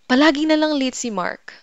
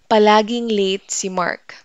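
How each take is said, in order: First: It is said in a frustrated, annoyed tone. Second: It is said in a plain, neutral tone.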